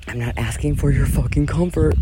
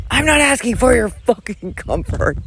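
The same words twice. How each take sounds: First: Said in the usual way. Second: High-pitched mock yell, held back in volume; faux yell. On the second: Vlogger ranting at her audience, a faux yell. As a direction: yell it without real loudness, keeping the neighbors calm. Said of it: "faux yell".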